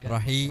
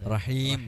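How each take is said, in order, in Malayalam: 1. ഈ വാക്ക് അവസാനം m ശബ്ദമില്ലാതെയാണ് അവസാനിക്കുന്നത്. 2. ഈ വാക്ക് ചുണ്ടുകൾ അടച്ച് m ഉച്ചരിച്ചാണ് അവസാനിക്കുന്നത്. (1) "റഹീ എന്ന് പറഞ്ഞു നിർത്താതെ" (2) "റഹീം എന്ന് വായ പൂട്ടുന്ന രൂപത്തിലേക്ക് എത്തിയിട്ട്"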